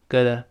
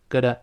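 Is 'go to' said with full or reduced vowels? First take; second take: reduced; reduced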